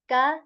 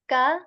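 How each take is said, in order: The two takes are said the same way.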